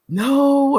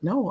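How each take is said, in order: First: The word is said with hesitant emotional feeling. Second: The word is said flatly and matter-of-factly. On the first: The refusal is reluctant and apologetic. "it tends to be more emotional. It's more no" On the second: The refusal is firm and without apology. "better business like. They just say no"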